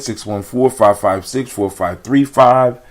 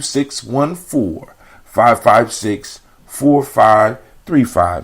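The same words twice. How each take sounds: First: The number is said fast. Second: The number is said slowly.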